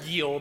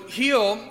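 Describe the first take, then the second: First: The word does not sound like 'healing'. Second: The word sounds like the start of 'healing'. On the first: The speaker calls it wrong. "we would pronounce it Giel" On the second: The speaker calls it right. "it's actually pronounced like healing"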